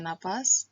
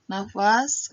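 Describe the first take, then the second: First: Nafas said as "napas"; standard form. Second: Nafas with an F; F in the middle of Nafas; non-standard form. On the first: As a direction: turn the F of nafas into P. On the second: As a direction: say Nafas as "na-fas". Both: Shown as a demonstration. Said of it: "kata bakunya nafas".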